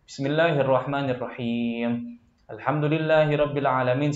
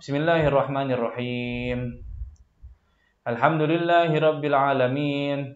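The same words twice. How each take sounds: First: The two phrases run on without a long pause. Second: A long silent pause separates the two phrases.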